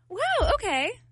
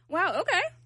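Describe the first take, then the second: First: It sounds supportive and encouraging. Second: It sounds sarcastic and mocking.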